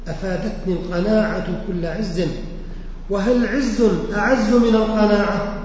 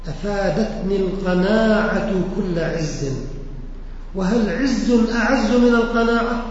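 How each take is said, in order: Both takes have the same delivery.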